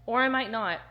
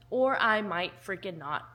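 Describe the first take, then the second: First: Said in the usual way. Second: "freaking" leaned on, playfully defiant; stress on freaking. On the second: Shown as a demonstration. Cheeky vlogger to viewers, stress on "freaking". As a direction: punch "freaking" for cheeky emphasis.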